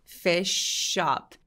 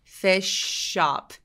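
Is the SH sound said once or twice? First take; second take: once; once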